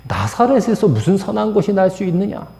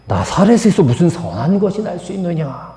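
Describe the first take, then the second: First: Higher, scoffing repeat of the line; a sneering dismissal of Nazareth; blunt retort. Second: Blunt retort. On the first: Shown as a demonstration. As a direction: toss it off with open contempt. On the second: Retold or imitated. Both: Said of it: "이렇게 퉁명스럽게 말하는 거예요".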